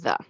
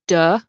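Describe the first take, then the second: First: The word begins with a TH sound. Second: The word begins with a D sound. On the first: The speaker calls it right. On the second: The speaker calls it wrong.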